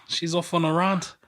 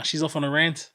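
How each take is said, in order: First: "rant" with a broad 'ah' vowel; long-A rant. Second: "rant" with the 'a' of ant; short-A rant. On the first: Testing the word in a sentence, "rant" as RAHNT. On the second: Correcting the test sentence, "rant" rhyming with ant. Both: Shown as a demonstration. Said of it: "How do you say the word".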